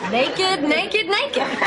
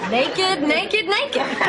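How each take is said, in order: No difference in how they are said.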